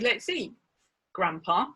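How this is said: There is a pause before grandpa. Grandpa is being spoken to, not eaten.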